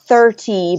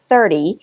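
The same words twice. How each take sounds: First: The middle consonant is a clear T. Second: The middle consonant sounds like a D. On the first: The speaker calls it wrong. "or not" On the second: The speaker calls it right. "changing that T to a D sound"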